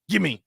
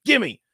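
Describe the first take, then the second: First: Said in the usual way. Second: Gimme said higher in a mock Spanish accent; imitating a Spanish accent. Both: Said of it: "like, in an accent".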